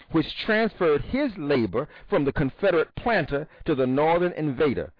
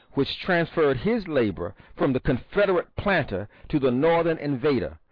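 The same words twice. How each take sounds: Both takes have the same delivery.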